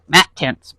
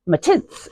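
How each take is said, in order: First: It is said with an American accent. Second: It is said with an Australian accent. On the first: "me with my American accent, I'm like" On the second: "she has just a wonderful Australian accent, and she says "matits" in this really beautiful way"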